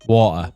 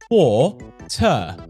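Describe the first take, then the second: First: The word is said loosely, with little effort. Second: The word is said carefully, with strain and effort. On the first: "I just want to say water" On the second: "there's too much strain on your mouth to have to say it. You have to go"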